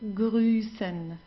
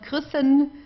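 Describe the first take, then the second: First: The vowel is long and stretched. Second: The vowel is short and clipped. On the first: The speaker calls it right. "all you have to do is to stretch the vowel" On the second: The speaker calls it wrong. "it's not"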